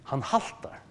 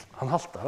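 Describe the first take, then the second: First: Whispered, almost breathless Han haltar; a hushed answer about limping Jacob. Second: Said in the usual way. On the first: Shown as a demonstration. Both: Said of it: "Martin Lloyd Jones svarar".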